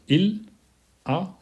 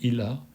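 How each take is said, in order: First: The two words are said slowly and separately. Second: The two words run together like one word. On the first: "si on parle lentement, on va dire il a, on va séparer les mots" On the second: "si on parle normalement, on va dire il a, il a, comme s'il y avait un seul mot"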